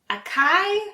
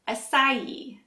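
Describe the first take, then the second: First: The C is said as a hard sound. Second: The C is said as a soft sound. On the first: The speaker calls it wrong. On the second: The speaker calls it right.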